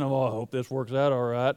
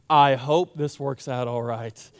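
First: It is said in a North Texas accent. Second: It is said in a plain accent.

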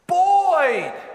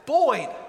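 First: The name is yelled loudly. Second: The name is called at normal volume.

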